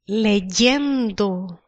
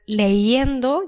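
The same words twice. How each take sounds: First: The ending is said with a clear y sound. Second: The ending is said as a plain vowel, without y. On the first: The speaker calls it right. "you'll say leyendo" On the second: The speaker calls it wrong. "rather than leyendo"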